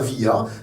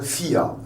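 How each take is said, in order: First: The word begins with a v sound. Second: The word begins with an f sound. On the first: The speaker calls it wrong. "mais on ne dit pas VIA" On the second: The speaker calls it right. "c'est un FIA"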